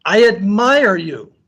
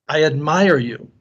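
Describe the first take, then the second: First: High, drawn-out call; screamed praise. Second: Said in the usual way. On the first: A narrator's reading. Father screaming to the mountains, admiring holler. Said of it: "he screams to the mountains". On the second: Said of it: "The voice answers".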